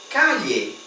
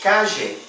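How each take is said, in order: First: It is said with a Spanish accent from Spain. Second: It is said with an Argentine Spanish accent. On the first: "No espanhol falado na Espanha, nós falamos calle" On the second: "No espanhol falado na Argentina, nós falamos calle"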